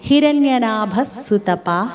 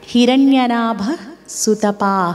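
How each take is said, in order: First: The words are joined, with a doubled s sound. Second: The words are separate, with the final breath sound. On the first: The two names are read joined together. "విసర్గను పలకకుండా సు కింద సావొత్తిచ్చి ఒత్తి పలికితే" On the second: The two names are read apart. "విడదీసినప్పుడు ఆ విధంగా"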